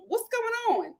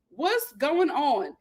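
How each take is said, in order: First: High and light, at normal pace; high-pitched disbelief. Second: Half-speed, every word stretched; slow, drawn-out disbelief. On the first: Incredulous question, first take. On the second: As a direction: drag the question out slowly. Same question repeated slowly. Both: Real, not acted.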